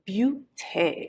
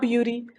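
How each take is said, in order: First: It is said the French way, ending in té. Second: It is said like the English word beauty. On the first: The speaker calls it right. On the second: The speaker calls it wrong. "Not beauty"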